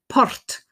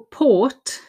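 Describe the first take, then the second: First: The r is strong and the vowel is short. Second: The r is silent and the vowel is long. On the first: The speaker calls it wrong. "pronounce that r very strongly and to make a short o, like port" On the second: The speaker calls it right. "port is the difficult or sound"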